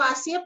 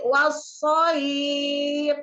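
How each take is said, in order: First: The s sound is plain and thin. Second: The s sound is heavy and emphatic. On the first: The speaker calls it wrong. "bukan wasib" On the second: The speaker calls it right. "tapi wasoib"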